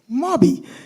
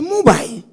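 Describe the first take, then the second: First: The word ends with an ee sound. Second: The word ends with an L sound. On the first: The speaker calls it right. "The word is Moby" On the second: The speaker calls it wrong. "you have the incorrect pronunciation"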